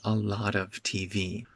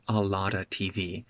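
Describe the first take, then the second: First: The word 'of' is said in full. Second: The word 'of' is reduced to 'a'. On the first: A more formal way of speaking. "you can say a lot of T V" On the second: A relaxed, informal way of speaking. "or a lotta T V"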